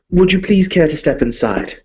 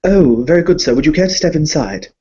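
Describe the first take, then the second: First: Higher, genteel aristocrat voice, lightly done; refined vampire lord greeting a guest; Viscount Alexander Harkin. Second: A lightly higher, hesitant little servant voice; a hint of a timid bank clerk; nervous servant. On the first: Acted. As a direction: play a polite, fussy nobleman. Viscount speaking in character. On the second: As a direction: stammer like a flustered doorman. The servant welcomes the guest.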